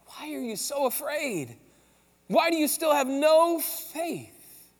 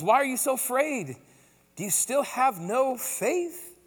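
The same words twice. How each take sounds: First: Drawn out slowly, each word weighed; slow pointed question. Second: Said in the usual way. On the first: Acted. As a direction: press the question home, slow and searching. Jesus cutting to the core.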